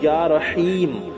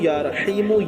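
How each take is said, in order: First: The word ends on the 'm' with no vowel. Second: The word ends with a short 'u' vowel. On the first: The reciter stops here. "जहां ठहरेंगे वहां या रहीम पढ़ेंगे" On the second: The recitation continues without stopping. "जहां लगातार मिलाकर पढ़ेंगे वहां या रहीमु"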